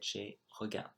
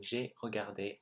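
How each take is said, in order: First: The word ends without the 'ay' vowel. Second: The word ends with a clear 'ay' vowel. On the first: The speaker calls it wrong. "I said j'ai regarde" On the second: The speaker calls it right. "instead of saying j'ai regardé"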